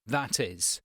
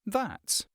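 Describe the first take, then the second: First: "That is" as two separate words; uncontracted form. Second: "That" run together with "is" as "that's"; contracted form. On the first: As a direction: say "That is" in full, as scripted. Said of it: "the script says something like". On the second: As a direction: shorten "That" plus "is" into one informal "that's". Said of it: "It's a contraction". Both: Shown as a demonstration.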